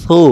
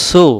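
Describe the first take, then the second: First: Light air over the tongue tip on সু; tongue-tip articulation. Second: সু with a sharp hissed s; wrong sin sound. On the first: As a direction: say সু as a long "thoo". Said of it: "জিহ্বাটার আগা থেকে হালকা বাতাস বেরোবে". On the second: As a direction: say সু like "soo". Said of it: "তখন সিন অক্ষর উচ্চারণ হবে". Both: Shown as a demonstration.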